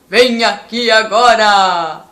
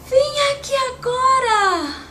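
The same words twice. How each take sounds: First: It is said like Santa Claus. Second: It is said like a fairy.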